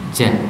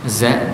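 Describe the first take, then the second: First: It begins with a j sound. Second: It begins with a z sound. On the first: The speaker calls it wrong. "za jadi ja" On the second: The speaker calls it right. "huruf Z"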